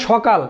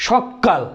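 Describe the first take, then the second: First: Said in the usual way. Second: সকাল said as সক্কাল with a held ক; সকাল with a long ক for stress; emphatic doubled k. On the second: Shown as a demonstration. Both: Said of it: "জোর দেওয়ার জন্য বলি".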